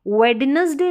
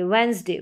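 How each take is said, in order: First: The d sound is pronounced in the word. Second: The d sound is silent in the word. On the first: The speaker calls it wrong. "उसको वेडनेसडे नहीं बोलेंगे" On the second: The speaker calls it right. "वेंसडे डी silent है"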